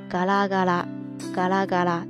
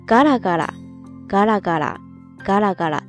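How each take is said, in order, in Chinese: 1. 音调保持平稳，没有下降。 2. 第一个音拍高，然后下降。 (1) "当它做一个形容词的时候呢……是一个平板型的读音" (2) "当它作为一个副词或者说动词的时候呢，就要变成头高型"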